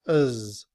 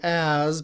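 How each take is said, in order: First: The vowel is reduced to a weak uh. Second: The vowel is a full, clear a sound. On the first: "in reduced form, as is written with the schwa" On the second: "So as becomes uz"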